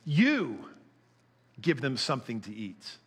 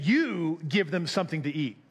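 First: "You" set apart, a pause, then "give them something to eat" dropping low; emphatic you. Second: "You" pointed and stressed, rest falling off; emphatic you, a bit upset. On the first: Shown as a demonstration. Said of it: "it's called an emphatic "you". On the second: Retold or imitated. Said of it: "maybe a tiny bit upset".

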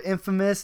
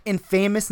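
First: Said in the usual way. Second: "infamous" said in-FAY-mous, long A, stress on the middle; wrong stress. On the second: Shown as a demonstration. Dogs mangling English, "infamous" said in-FAY-mous. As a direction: mispronounce "infamous" as in-FAY-mous like a dog would. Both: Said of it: "infamous instead of infamous".

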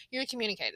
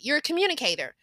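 First: "You're a communicator" repeated softer, falling on "You're"; soft echo. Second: "You're a communicator" raised high, stress on "communicator"; emphatic praise. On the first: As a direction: let "communicator" settle quietly. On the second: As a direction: punch "communicator" with a high pitch. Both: Real, not acted.

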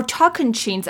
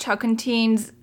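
First: Tocantins said with a "ch" in the last syllable, "TOK-an-cheens"; corrected pronunciation. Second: Said in the usual way. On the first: Shown as a demonstration. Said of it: "I believe is how it's pronounced". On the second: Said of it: "is how it's pronounced".

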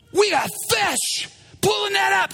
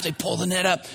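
First: High, urgent acted command; excited shout. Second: Said in the usual way. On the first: Peter discovering the catch, excited. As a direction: yell the catch out, pitched way up. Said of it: "Peter's like".

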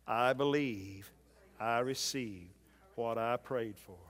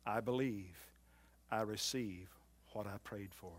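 First: Slower, fuller, each phrase set apart; firm confession. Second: Softer, trailing first take; soft confession. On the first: Preacher leading the church to say it aloud, slow and firm. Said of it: "Would you say that with your own mouth?". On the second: Preacher giving the confession first, softly. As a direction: say it quietly to yourself. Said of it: "your confession today ought to be this". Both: Shown as a demonstration.

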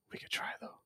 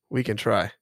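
First: Hushed breathy whisper. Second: Said in the usual way. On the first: Real, not acted. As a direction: whisper it under your breath. Whispered aside before plain repeat.

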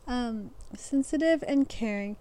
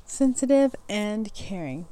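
First: Said in the usual way. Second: Slow, deliberate reread of the words; careful reread. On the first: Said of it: "I'm reading funny things". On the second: Shown as a demonstration. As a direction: say it again slowly, getting it right. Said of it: "mouth doesn't wanna work".

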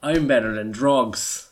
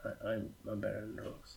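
First: Proud declaration. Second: Muttered. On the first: Acted. Repeats line louder and slower. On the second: Real, not acted. First quiet take.

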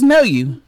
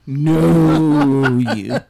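First: Said in the usual way. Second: "know" heavily drawn out and loud; stress on know. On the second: Shown as a demonstration. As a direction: stretch "know" long to make it mean far more. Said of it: "Not just know you".

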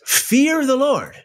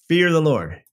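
First: Fear lifted very high and slow, then falling; stress on fear. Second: Said in the usual way. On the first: Acted. Preacher reading Proverbs aloud, Fear lifted very high and slow. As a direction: hit Fear high before dropping the rest.

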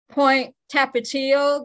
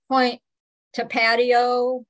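First: "Tapatio" said slowly as tap-a-TEE-o; correct pronunciation, slow. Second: "Tapatio" said slowly as tuh-PADDY-o; mangled mispronunciation. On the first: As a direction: give "Tapatio" its Spanish TEE-o ending, slowly. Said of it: "how people mispronounce some of the names". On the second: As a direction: kill "Tapatio" with a slow PATTY-o. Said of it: "they just kill some of the". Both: Shown as a demonstration.

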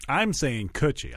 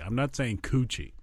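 First: "Coochie" as "kutchy", said slowly and deliberately; short, lax first vowel on "Coochie". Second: "Coochie" as "koo-chee"; long, rounded first vowel on "Coochie". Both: Shown as a demonstration.

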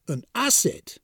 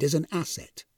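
First: Higher, questioning echo of disbelief; incredulous echo. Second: Said in the usual way. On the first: A narrator's reading. Death echoes the supervisor's news, incredulous. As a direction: repeat it back as if you can't believe it. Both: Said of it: "echoed Death incredulously".

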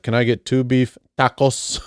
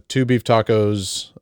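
First: Mock Spanish accent on "tacos"; put-on Spanish dialect. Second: Said in the usual way. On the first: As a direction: imitate someone adding a Spanish dialect to "tacos". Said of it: "add the proper dialect to any word". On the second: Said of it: "I would just say".

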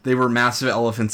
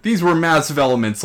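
First: "elephants" said properly with the f sound; careful "elephants", no m sound; corrected pronunciation. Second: "elements" said in place of "elephants"; "elements" with an m where "elephants" needs ph; mispronounced elephant. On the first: Shown as a demonstration. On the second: Real, not acted. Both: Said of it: "pronounce elephant one more time for me".

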